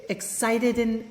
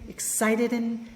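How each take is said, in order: The two takes are said the same way.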